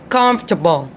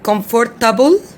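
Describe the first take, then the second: First: The middle syllable is dropped, fewer syllables. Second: The middle e syllable is fully sounded. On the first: The speaker calls it right. "Try to follow my accent" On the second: The speaker calls it wrong. "some people say comfortable"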